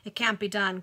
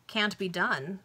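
First: A touch of gruff refusal, louder; mild growl. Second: Said in the usual way. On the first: A narrator's reading. Old cashier refusing the banker's order, mildly growled. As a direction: refuse firmly with a slight growl. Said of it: "growled Michael". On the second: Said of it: "said the banker".

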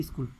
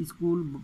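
First: "স্কুল" said as in English; "স্কুল" as English "school"; English-style pronunciation. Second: "স্কুল" said as "iskul"; "স্কুল" nativised with a leading i sound; altered Bengali pronunciation. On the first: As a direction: say "স্কুল" the English way, starting straight on the sk. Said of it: "অনেকটা ইংরেজি উচ্চারণে". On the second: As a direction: add a short i before "স্কুল": i-skul. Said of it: "পরিবর্তিত উচ্চারণে আছে". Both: Shown as a demonstration.

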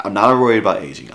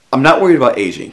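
First: Firm, quick denial punching "not"; corrected retake. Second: Loud, high, quick protest; emphatic, hurried denial at high pitch; first attempt at the line. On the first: Acted. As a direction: stress on "not", quick and fairly loud. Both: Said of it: "Let me get that right".

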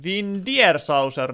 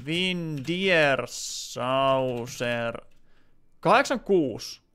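First: Said in the usual way. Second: Each syllable drawn out very slowly while typing; slow dictation. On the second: Real, not acted. Streamer typing a viewer's username, slow careful dictation. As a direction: sound it out letter by letter as you type.

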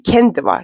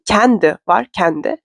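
First: "kendi" with a closed E, as in "ken"; contrasting vowel demo. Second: "kendi" with an open E, like "kændi"; contrasting vowel demo. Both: Shown as a demonstration. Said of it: "Anladınız mı aradaki farkı".

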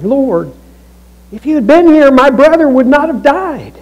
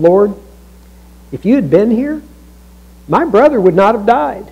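First: High, anguished plea; grief-stricken collapse. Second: Measured question with a touch of reproach; understated accusation, kept conversational; mildly accusing. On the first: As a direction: cry it out as if falling at someone's feet. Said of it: "she's falling while she's talking". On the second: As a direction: put a mild complaint to someone you trust. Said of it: "that sounds like a very accusing question". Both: Acted.

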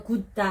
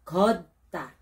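First: 걷다 said wrongly as "gutta", with an "u" vowel; maling bigkas. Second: 걷다 with an open "eo" vowel and a held stop before "ta"; tamang bigkas. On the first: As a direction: say 걷다 as a mistaken "gutta". (maling bigkas ng 걷다, parang "gutta") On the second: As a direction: model 걷다 as "geot-tta", not "gutta". (tamang bigkas ng 걷다, "geot-tta") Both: Shown as a demonstration. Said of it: "Hindi pa 걷다 ha".

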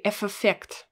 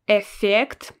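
First: F effect with the F said twice, separately; F effect, wrongly split; wrong double F. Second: Effect with a single long F, louder; one long F. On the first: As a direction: show the mistake, F then effect. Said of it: "I don't say F effect". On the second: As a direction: stretch the F in Effect once. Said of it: "I don't really say this letter F". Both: Shown as a demonstration.

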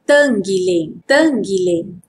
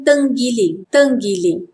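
First: Everyday "tenggiling", relaxed last vowel; casual Malay form of "tenggiling"; informal Malay pronunciation. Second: Formal "tenggiling" with clear I vowels; careful textbook "tenggiling"; formal Malay pronunciation. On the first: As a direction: say "tenggiling" colloquially. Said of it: "Informal pronunciation". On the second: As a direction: say "tenggiling" as teng-gi-ling. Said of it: "Formal pronunciation". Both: Shown as a demonstration.

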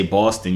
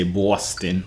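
First: Said in the usual way. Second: Put-on "Boston" drawn out slowly in a local Boston accent; slow, exaggerated Boston accent; imitated Boston accent. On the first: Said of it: "you sound regular, but". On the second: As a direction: mimic a true Boston native saying "Boston". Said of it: "like you really from Boston".

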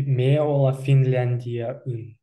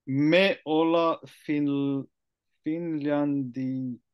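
First: Slow Me olla Finlandiaun, ending aun clearly; correct model. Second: Slow, halting Me olla Finlandian; learner attempt. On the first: Native speaker corrects the learner's Komi. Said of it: "but we say". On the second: Learner slowly attempts the Komi sentence. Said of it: "so that means". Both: Shown as a demonstration.

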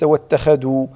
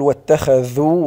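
First: واتخذوا with d for ذ; واتخذوا with a plain d; wrong pronunciation. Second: واتخذوا with a clear ذ; واتخذوا with voiced th; correct pronunciation. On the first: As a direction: say واتخذوا as watakhadu. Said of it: "وليس". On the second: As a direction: say واتخذوا slowly with th. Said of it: "يعني نقول". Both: Shown as a demonstration.

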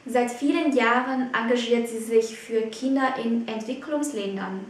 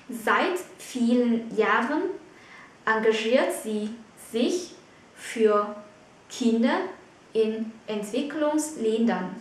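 First: Said in the usual way. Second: Slow, chopped into short groups with pauses; phrase-by-phrase dictation. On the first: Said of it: "Mình có một câu ví dụ". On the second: Shown as a demonstration. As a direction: pause after "Jahren", "sie", "sich", "für" and "Kinder". Teacher repeats example in chunks.

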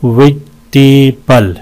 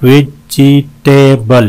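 First: "वेजिटेबल" slowly, in three chunks; syllable breakdown. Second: "वेजिटेबल" slowly, in four full beats; syllable breakdown. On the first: ("वेजिटेबल" टुकड़ों में धीरे) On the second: ("वेजिटेबल" चार हिस्सों में धीरे) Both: Shown as a demonstration. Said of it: "चार हैं इसमें".

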